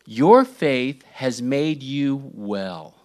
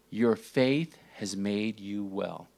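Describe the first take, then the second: First: Slow and loud, every word weighted; Jesus declaring the healing, slow and loud; proclaiming. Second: Slow and soft, leaning on faith; Jesus speaking the healing gently, slow and soft; gentle. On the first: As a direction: proclaim it slowly to the crowd. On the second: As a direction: say it softly, like a blessing. Jesus' words, repeated gently. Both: Acted.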